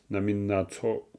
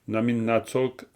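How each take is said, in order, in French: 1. La phrase se termine par une voyelle, sans son k. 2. La phrase se termine par un son k audible. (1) "c'est namin natso" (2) "ça sera très rare d'entendre namin natsok"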